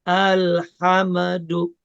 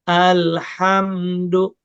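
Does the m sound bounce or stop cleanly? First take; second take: bouncing; clean stop. First: The m is released with a small bounce. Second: The m is closed off cleanly, without a bounce. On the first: The speaker calls it wrong. "Jadi enggak alhamdu. Ada yang begitu bacanya" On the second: The speaker calls it right. "jangan sampai mantul, betul-betul dimatikan"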